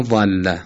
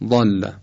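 First: ضل with a fronted Persian "æ"; ضل as "zælla", not backed; wrong light fatha. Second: ضل with a short, dark, backed "a"; short rounded Arabic fatha in ضل; correct heavy fatha. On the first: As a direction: show the mistaken ضل, thin front vowel. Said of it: "ضل غلطه". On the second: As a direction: model emphatic "ḍalla" for ضل. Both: Shown as a demonstration.

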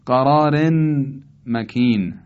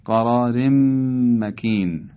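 First: «قرار مکین» as qarāren, pause, makin; unmerged reading. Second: «قرار مکین» as qarārem-makin, long hummed m; idgham. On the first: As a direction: sound the n ending of «قرار» before «مکین». (خواندن «قرار مکین» با تنوین آشکار) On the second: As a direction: merge the n ending of «قرار» into a held م. («قرار مکین» با ادغام تنوین در میم) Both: Shown as a demonstration.

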